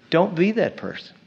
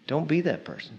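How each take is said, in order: First: Said in the usual way. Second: Much softer repeat of don't be that person; quiet repeat. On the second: Shown as a demonstration. Preacher repeating warning to congregation, much softer. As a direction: drop the voice for the echo.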